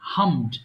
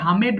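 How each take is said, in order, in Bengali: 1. শেষের অংশটি সরাসরি যুক্ত হয়, তাই একটি শব্দাংশ হয়। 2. d-এর আগে একটি অতিরিক্ত স্বরধ্বনি যোগ হলে একটি শব্দাংশ বাড়ে।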